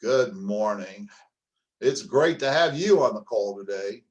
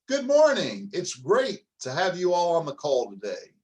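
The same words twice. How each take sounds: First: Flat dull greeting. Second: High, loud, cheerful good morning; bright upbeat greeting. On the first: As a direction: greet them like it's a chore. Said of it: "Or listen to this one". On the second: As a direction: greet them like you're thrilled. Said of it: "Let's do the voice right now". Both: Shown as a demonstration.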